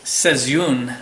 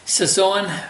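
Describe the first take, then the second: First: It is said like the Dutch word seizoen. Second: It is said like the French word saison. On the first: The speaker calls it right. "is the proper pronunciation" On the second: The speaker calls it wrong. "I'm pronouncing that wrong"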